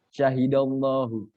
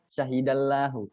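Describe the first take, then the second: First: The L in Allah sounds thick and rounded. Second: The L in Allah sounds thin and light. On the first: The speaker calls it right. "tafkhim agak hampir berbentuk bulat mulutnya" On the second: The speaker calls it wrong.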